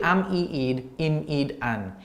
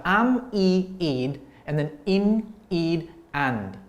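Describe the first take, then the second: First: "an" ending on the N, D left silent; final D dropped. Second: "and" with its final D; final D sounded. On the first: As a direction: recite am, e, ed, im, ed, an, with no D closing "an". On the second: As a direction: recite am, e, ed, im, ed, and, closing "and" on a D. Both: Shown as a demonstration. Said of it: "they don't normally pronounce the D".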